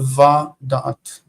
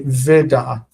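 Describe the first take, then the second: First: The first syllable has an 'a' vowel. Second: The first syllable has an 'e' vowel. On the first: The two words form a closely linked pair. "Can you see the the word va, the sound va?" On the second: This is the usual form of the word. "We would normally say ve da'at"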